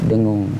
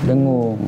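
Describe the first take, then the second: The two takes are said the same way.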